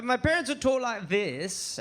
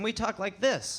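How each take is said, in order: First: Slow, lightly British accent; drawn-out English accent, demonstrating; parents' English accent. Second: Said in the usual way. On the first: Shown as a demonstration. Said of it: "and we talk like this".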